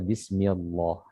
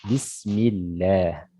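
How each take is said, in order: First: The L sound in Allah is heavy and thick. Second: The L sound in Allah is light and thin. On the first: The speaker calls it wrong. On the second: The speaker calls it right.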